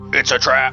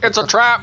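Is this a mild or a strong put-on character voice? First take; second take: mild; strong. First: A weak, half-hearted character impersonation. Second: A fuller, more committed character impersonation. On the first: The speaker calls it wrong. "you can do a better impersonation than that" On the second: The speaker calls it right. "There you go. That's better"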